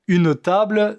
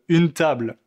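First: It is said in a southern Marseille accent. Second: It is said in a standard French accent.

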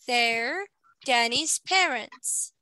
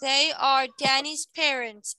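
First: They and are merge into one short syllable. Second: They and are are said as two full words. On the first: "So we must make the sentence shorter" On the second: "It's longer"

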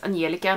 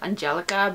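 First: The name is pronounced the Swedish way. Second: The name is pronounced the English way. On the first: The speaker calls it right. "her name is Angelica" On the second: The speaker calls it wrong. "not Angelica"

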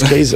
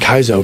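First: The first syllable sounds like 'kay'. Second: The first syllable sounds like 'kai'. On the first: The speaker calls it right. "It's K" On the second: The speaker calls it wrong. "never think A and Y would be Kai"

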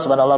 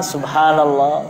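First: It is said quickly, in a hurried run. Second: It is said slowly and calmly. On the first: It is said without devotion or reflection. The speaker calls it wrong. "Jangan asal bertasbih mengejar waktu" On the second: It is said with humility and reflection. The speaker calls it right.

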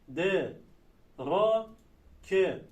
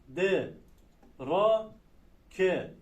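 The two takes are said the same way.

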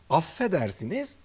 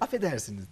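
First: The f sound is held long, doubled. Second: The f sound is short and single. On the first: The speaker calls it right. "iki tane F var" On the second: The speaker calls it wrong. "Yok öyle değil"

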